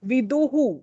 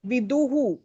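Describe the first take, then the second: No difference in how they are said.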